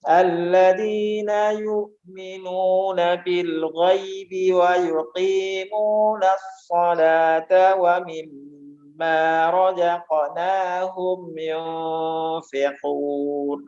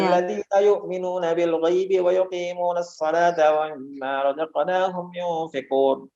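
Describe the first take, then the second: First: It is recited slowly with long drawn sounds. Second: It is recited quickly and lightly. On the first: "ini panjang" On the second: "Ringan sekali"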